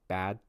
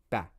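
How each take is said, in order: First: The final d sound is held. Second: The final d sound is dropped. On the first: The speaker calls it right. "I hold the final sound" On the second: The speaker calls it wrong. "that is not really uh, comprehensible"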